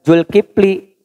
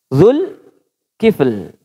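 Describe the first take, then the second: First: The name ends with an added final vowel. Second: The name ends on the consonant l. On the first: The speaker calls it wrong. "bukan Dul bukan Zulkifli" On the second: The speaker calls it right. "Dzulkifl, kaf fa lam"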